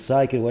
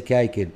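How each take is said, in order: First: The word begins with an s sound. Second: The word begins with a k sound. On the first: The speaker calls it right. "إذا نقول سايكل" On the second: The speaker calls it wrong. "وليس كايكل"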